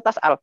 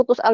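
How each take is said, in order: First: "tas'al" dengan vokal A; dialek Hafes. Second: "tus'al" dengan vokal U; dialek Waras. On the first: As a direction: awali "tas'al" dengan bunyi TAS. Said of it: "Dialeknya Hafes". ("tas'al" gaya bacaan Hafes) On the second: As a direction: awali "tus'al" dengan bunyi TUS. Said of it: "Dialeknya Waras". ("tus'al" gaya bacaan Waras) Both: Shown as a demonstration.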